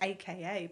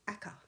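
First: It is spelled out as three separate letters. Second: It is said as one two-syllable word. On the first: "I've always heard AKA" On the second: "but not aka"

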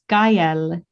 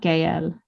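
First: The name is said as two syllables, gah-EL. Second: The name is said as one syllable, gale. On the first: The speaker calls it right. "It's Gael" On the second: The speaker calls it wrong. "not Gael. ... I've been saying it wrong"

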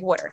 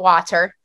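First: It is said in a Philadelphia accent. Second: It is said in a standard American accent.

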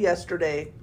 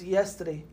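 First: It is said with a standard, non-local pronunciation. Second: It is said with a New Orleans pronunciation. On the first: The speaker is not from that place. The speaker calls it right. "you're not from there. You say yesterday" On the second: The speaker picked up a local way of talking. The speaker calls it wrong. "He's from New Orleans, and he says yesterday, and I accidentally started saying that"

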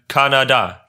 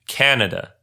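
First: All syllables get equal stress. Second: The first syllable is stressed.

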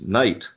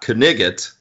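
First: The k is silent and there is one syllable. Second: The k is sounded and there are two syllables. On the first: The speaker calls it right. "It's actually pronounced night" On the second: The speaker calls it wrong. "which is not Knigget"

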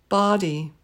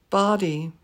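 No difference in how they are said.

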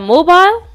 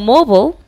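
First: The vowel in the last syllable is heard. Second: The vowel in the last syllable is silent.

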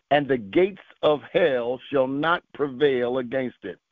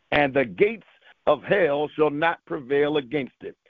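No difference in how they are said.

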